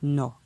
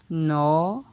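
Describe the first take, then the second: First: The syllable has a low tone. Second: The syllable has a rising tone. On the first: "pour un ton bas" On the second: "Ton montant"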